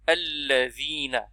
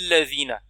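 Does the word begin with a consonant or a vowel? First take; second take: vowel; consonant. First: The word starts with a short a vowel. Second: The word starts directly on the doubled consonant. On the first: The speaker calls it right. "c'est hamzat wasl, qui, dans ce cas-là, elle est a" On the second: The speaker calls it wrong. "on ne peut pas dire ladina"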